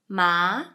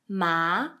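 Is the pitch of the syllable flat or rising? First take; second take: rising; rising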